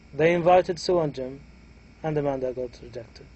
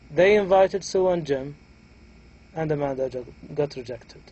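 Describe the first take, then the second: First: A rise and break come right after Jim. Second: A rise and break come right after Jim.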